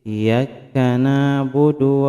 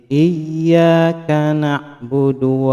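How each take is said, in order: First: The y sound is short and single. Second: The y sound is held long and doubled. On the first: Sunlight alone we worship. The speaker calls it wrong. "Jangan sampai membaca tanpa tasjid" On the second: You alone we worship. The speaker calls it right. "harus dengan memakai tasjid"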